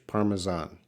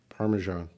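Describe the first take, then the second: First: It is said in a British accent. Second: It is said in a non-British accent.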